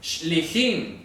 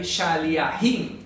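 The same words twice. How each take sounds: First: Shlichim drawn out slowly, shli-JIM; shlichim, sh and l run together, slow model for a class; correct plural pronunciation. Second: Shaliahim drawn out slowly as sha-li-a-JIM; incorrect plural demo. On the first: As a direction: say shlichim slowly and carefully as two syllables. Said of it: "El plural es shlichim". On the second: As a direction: say shaliahim slowly with every vowel, the wrong form. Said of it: "Nunca vayan a decir, como dicen por ahí". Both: Shown as a demonstration.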